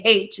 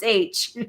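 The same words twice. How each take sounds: First: "H" said as "haitch", with a breathy h at the front; haitch, H sounded. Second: "H" said as "aitch", starting on the vowel; aitch, no h sound. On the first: Retelling dad's drilled rule, "H" wrongly said as "haitch". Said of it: "it was drilled into me, you don't say H". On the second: Retelling dad's drilled rule, "H" corrected to "aitch". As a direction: say "H" without any h: aitch. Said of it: "it was drilled into me". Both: Retold or imitated.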